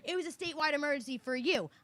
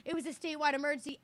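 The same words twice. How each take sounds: First: "for you" pushed hard as the retort; sharp comeback with "for you" stressed. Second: Quick, brushing-off clerk imitation; mildly mocking the clerk's rushed excuse; imitating the clerk. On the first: Real, not acted. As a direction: turn her excuse back on her by leaning on "for you". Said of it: "that's not what I asked you". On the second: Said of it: "And she goes".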